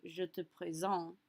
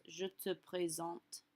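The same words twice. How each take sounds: First: "présente" ending on a nasal vowel, no T; silent final T. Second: "présente" closed with an audible T, slower; pronounced final T. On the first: Teacher showing "présente" as if without final E, T silent. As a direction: drop the T at the end of "présente". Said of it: "If the E was not there". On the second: Teacher showing the final E makes "présente" end in a spoken T. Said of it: "we are going to say our T at the end of présente". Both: Shown as a demonstration.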